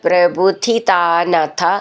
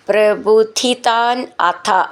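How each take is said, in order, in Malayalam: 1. ഈ രണ്ടു വാക്കുകളും ചേർത്ത് ഒറ്റ വാക്കായി പറയുന്നു. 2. ഈ രണ്ടു വാക്കുകളും വേർതിരിച്ചാണ് പറയുന്നത്.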